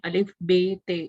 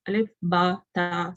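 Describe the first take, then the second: First: The letters end in an 'e' sound, Urdu style. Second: The letters end in an 'a' sound, Arabic style. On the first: It follows the habits of one's own language. The speaker calls it wrong. "जैसे हम पढ़ते हैं अलिफ बे ते इस तरह। तो वो हमें क़तन उसको ऐसे नहीं पढ़ना।" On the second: It follows the original Arabic pronunciation. The speaker calls it right. "हमें उसको वैसे ही अदा करना है, अलिफ बा ता सा के साथ।"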